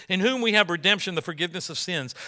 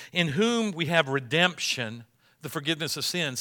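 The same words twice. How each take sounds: First: Quicker reread. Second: Said in the usual way. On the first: Shown as a demonstration. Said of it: "See that, that whole section". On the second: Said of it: "Look at verse fourteen".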